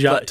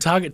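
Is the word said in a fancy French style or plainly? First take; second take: fancy; plain. First: It is said in a fancy French-sounding way. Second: It is said in a plain everyday way. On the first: The store is made to sound upmarket. "really up-brand" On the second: The ordinary name of the store. "trying to go from Target"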